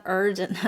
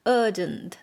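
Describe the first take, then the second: First: "urgent" with a curled American r; r-coloured pronunciation. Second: "urgent" in British accent, r dropped; British open vowel in "urgent", no r. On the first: Teacher showing how not to say it, "urgent" with a hard r. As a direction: sound the r in "urgent". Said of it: "not urgent". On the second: Teacher correcting the vowel, "urgent" in British accent without r. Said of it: "Sounds like in British accent". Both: Shown as a demonstration.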